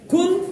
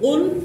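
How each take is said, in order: First: It starts with a plain k sound. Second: It starts with a deep q from the throat. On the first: I will eat God. The speaker calls it wrong. "কফের জায়গায় উলের জায়গায় কুল বলেন, তখন হয়ে যাবে আমি আল্লাহকে খেয়ে ফেলবো" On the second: Tell people that God is one. The speaker calls it right. "কফের উচ্চারণ, কাফের উচ্চারণ নয়"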